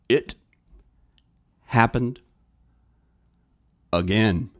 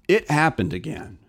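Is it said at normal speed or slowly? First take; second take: slowly; normal speed. First: It is said slowly. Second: It is said at normal speed.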